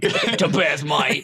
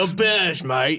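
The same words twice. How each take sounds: First: Cockney tough-guy voice, amused; Jason Statham voice. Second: Laughing Cockney tough-guy voice; Jason Statham voice. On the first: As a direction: copy a Statham London accent. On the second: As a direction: do a Statham-style London accent. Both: Retold or imitated. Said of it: "doing a Jason Statham voice".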